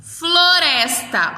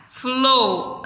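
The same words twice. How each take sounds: First: Said in the usual way. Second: FLORESTA slowly broken as flo, res, ta; split into syllables. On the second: Shown as a demonstration. Teacher separating syllables for children, split into syllables.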